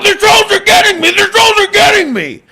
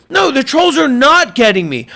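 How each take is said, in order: First: High, rushed, wailing mock panic; mock freak-out. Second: Said in the usual way. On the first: Streamer playing himself beaten by trolls, hammed-up panic. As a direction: cry it out in fake hysteria. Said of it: "I'm freaking out".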